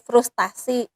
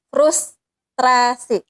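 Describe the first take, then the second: First: The second syllable has no r after t. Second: The second syllable has an r after t. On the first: The speaker calls it wrong. "kita seringkali mengatakannya sebagai frustasi" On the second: The speaker calls it right. "yang yang benar adalah frustrasi"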